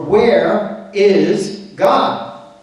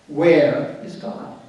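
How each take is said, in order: First: It is said firmly and somewhat stronger. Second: It is said calmly, without force.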